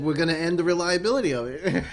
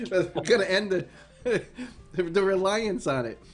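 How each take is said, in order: First: Reads "reliability" where the text says reliance, with a laugh; "reliability" said by mistake, laughing through it; misread quote. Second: Laughing correction to "reliance"; corrected reading. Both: Retold or imitated.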